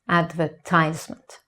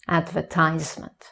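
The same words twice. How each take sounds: First: The stress is on the third syllable. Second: The stress is on the third syllable.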